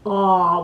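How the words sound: The vowel sounds held back in the throat. The speaker calls it wrong. "in the doctor's office where you go"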